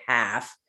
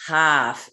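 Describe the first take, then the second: First: Said in the usual way. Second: Boston "half" with a broad open vowel; Boston accent. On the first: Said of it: "she says half instead of half". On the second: Retold or imitated. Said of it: "she has a heavy Boston accent".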